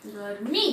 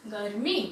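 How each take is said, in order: Both takes have the same delivery.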